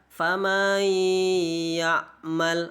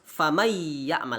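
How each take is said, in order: First: The vowel before the n sound is lengthened. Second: The vowel before the n sound is short. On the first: The speaker calls it wrong. "tidak boleh kita baca famay ya'mal, itu juga tidak boleh" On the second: The speaker calls it right. "Jadi harus famay ya'mal, lanjut langsung"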